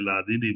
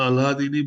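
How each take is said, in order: First: The word is said without any h sound. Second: The word is said with an audible h sound. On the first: "H silent રાખીને લાદીની બોલે છે" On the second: "પણ અલ્હાદીની બોલી શકાય"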